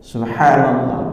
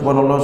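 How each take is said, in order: First: It is said slowly. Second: It is said fast.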